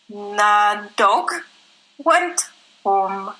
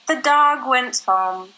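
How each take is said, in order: First: Spoken in a Czech accent, words not linked. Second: Spoken in a smooth American accent, words linked. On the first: "for Czech" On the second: "American style"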